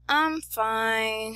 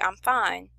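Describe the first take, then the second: First: It sounds troubled and not really fine. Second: It sounds content and untroubled.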